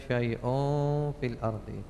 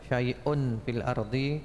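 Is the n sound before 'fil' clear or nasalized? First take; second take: nasalized; clear. First: The n before 'fil' is hidden and nasalized. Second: The n before 'fil' is pronounced clearly. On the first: It is read applying the recitation rules. "Kalau tajwid kan syai'un fil ardi. ... Tanwin ketemu fa, ikhfa" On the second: It is read without applying recitation rules. "Jadi bacanya syai'un fil ardi tidak apa-apa"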